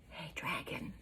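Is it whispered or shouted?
whispered. It is whispered very softly.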